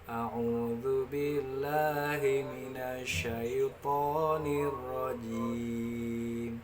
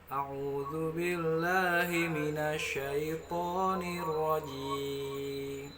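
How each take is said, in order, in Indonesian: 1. Nadanya lebih rendah. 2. Nadanya lebih tinggi.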